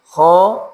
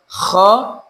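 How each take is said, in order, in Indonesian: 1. Bunyi kh itu ringan dan biasa, tidak serak. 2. Bunyi kh itu kasar dan serak seperti orang ngorok. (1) "yang tepat adalah biasa" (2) "Tidak kho"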